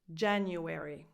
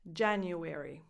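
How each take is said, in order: First: It is said with four syllables. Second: The same.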